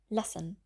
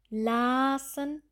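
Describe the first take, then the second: First: The a vowel is clipped short. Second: The a vowel is drawn out long. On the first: The speaker calls it right. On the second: The speaker calls it wrong.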